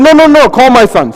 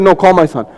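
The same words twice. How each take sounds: First: Louder, raised no, no, no, call my son; impatient call for the right son; insistent. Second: Said in the usual way. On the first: Acted. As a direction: brush them off and demand the son. Insistent repeated command.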